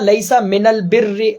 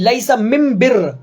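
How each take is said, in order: First: The article before birr uses an l sound. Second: The article before birr uses an m sound. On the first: The phrase is in its standard wording. "असल में यह था" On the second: The phrase is put in the listeners' own dialect. "अल बिर्र में जो लाम था उसे मीम से बदल दिया"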